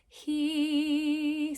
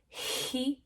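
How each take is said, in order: First: A little air, then immediately a strong tone. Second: Air rushes out audibly before the vowel starts. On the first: The speaker calls it right. "the balanced onset is he" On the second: The speaker calls it wrong. "The breathy onset would be he"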